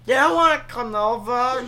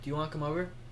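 First: It is said in a weird, put-on voice. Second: It is said in a normal voice.

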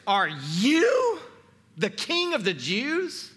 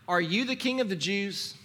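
First: The word 'you' is strongly emphasized. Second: It sounds like a plain question, no stressed 'you'. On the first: It challenges that this particular person could be king. The speaker calls it right. "the you is emphatic" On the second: It is a simple request for information. The speaker calls it wrong. "you are tempted to read this as a question"

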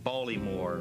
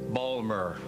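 First: The name is said with all three syllables. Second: The name is squeezed into two short syllables.

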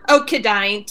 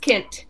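First: The name is said with an extra syllable. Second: The name is said as one short syllable. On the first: The speaker calls it wrong. "They always mispronounce it at Safeway" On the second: The speaker calls it right. "Yes, it's Kint"

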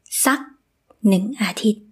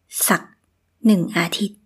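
First: The first word has a high tone. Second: The first word has a low tone. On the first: This is the everyday colloquial pronunciation. "This is in high tone" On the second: This is the standard written pronunciation. "This is with a low tone"

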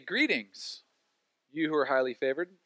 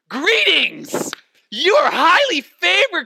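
First: The greeting is said flatly and calmly. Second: The greeting is said excitedly and enthusiastically.

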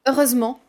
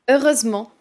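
First: The 'e' before '-ment' is dropped. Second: The same.

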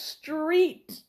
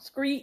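First: The word begins with an str sound. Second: The word begins with an skr sound. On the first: The speaker calls it wrong. "You want to shout and say" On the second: The speaker calls it right. "No, it's"

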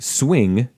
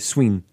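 First: The final G sound is clearly pronounced. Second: The final G sound is dropped. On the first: "You don't say swing" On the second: "You don't really pronounce the G at the end of words"

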